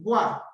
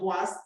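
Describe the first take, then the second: First: The final S is silent. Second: The final S is pronounced. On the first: The speaker calls it right. "the S does not sound" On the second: The speaker calls it wrong. "Please do not say bois"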